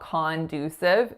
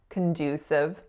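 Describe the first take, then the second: First: The first syllable has a full 'o' vowel. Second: The first syllable has a reduced schwa vowel. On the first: The speaker calls it wrong. "it's definitely not conducive" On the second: The speaker calls it right. "It's schwa"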